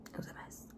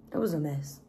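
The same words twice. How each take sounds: First: Barely audible whispered repeat. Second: Said in the usual way. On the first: Real, not acted. Recalling her panic attack, whispered aside. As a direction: whisper it as an afterthought to yourself.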